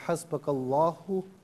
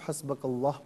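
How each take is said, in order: First: The word ends with a short final vowel. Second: The word ends on the consonant, vowel dropped. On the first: The reading continues without a stop. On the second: The reader stops at this point.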